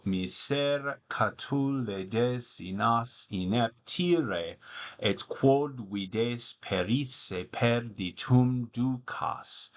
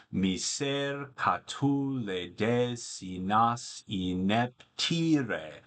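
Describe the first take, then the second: First: Slow, measured Latin verse reading; poetry recitation. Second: Slow, with the long final syllable of ineptire held to break the meter; limping iamb rhythm. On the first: Acted. Tutor reads Catullus aloud to students, slow recital. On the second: Shown as a demonstration. Tutor demonstrates the limping meter, slow and measured. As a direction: tap out the limping beat. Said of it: "a deliberately, meter-breaking final, foot of the poem".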